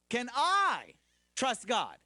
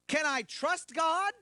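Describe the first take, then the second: First: The emphasis falls on the word I. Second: The emphasis falls on the word God. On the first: The question is whether the asker is willing to trust. "Meaning, am I willing?" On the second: The question is whether God deserves trust. "Meaning, is he worthy of my trust?"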